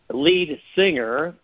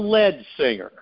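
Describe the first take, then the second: First: The word 'lead' rhymes with 'need'. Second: The word 'lead' rhymes with 'bed'. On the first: It names the main vocalist of a band. The speaker calls it right. "When we use the term lead singer in a band" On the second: It is a machine's misreading of the spelling. The speaker calls it wrong. "AI thinks it's the lead singer"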